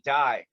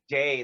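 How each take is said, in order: First: The vowel sounds like 'eye', UK style. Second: The vowel sounds like 'ay', American style. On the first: "they say die" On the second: "they don't say day"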